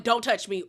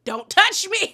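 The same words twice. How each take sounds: First: Said in the usual way. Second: Loud, high-pitched mock outburst; outraged warning. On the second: Recapper acting out warding off a grabbing castmate, loud outrage. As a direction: burst out with it, pitched way up.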